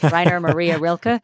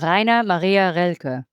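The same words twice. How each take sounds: First: The name is said with an American pronunciation. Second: The name is said with a German pronunciation. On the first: "American pronunciation would be" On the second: "I say that with the German pronunciation"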